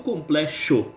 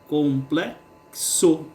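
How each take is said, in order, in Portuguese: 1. O x é pronunciado como sh. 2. O x é pronunciado como ks. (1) "E não complexo, com X" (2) "Aqui nós temos o som de K S"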